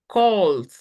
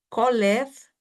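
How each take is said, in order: First: The ending joins the word with no syllable. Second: The ending is a separate extra syllable. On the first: The speaker calls it right. "Juntamos la L con la D" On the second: The speaker calls it wrong. "vamos a procurar que no suene el ed"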